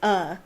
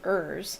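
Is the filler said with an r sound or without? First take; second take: Without r; With r. First: It is said with no r sound. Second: It is said with a strong r sound. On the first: The speaker calls it right. "that's not quite right. It's uh" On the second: The speaker calls it wrong. "when I read it in my American accent"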